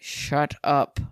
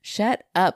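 First: It is hissed through gritted teeth. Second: It is said plainly, without a hiss. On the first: The speaker calls it right. "Was that better?" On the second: The speaker calls it wrong. "I didn't say that right"

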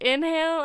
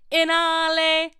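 First: It is said in a plain English accent. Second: It is said in a silly Italian-style accent.

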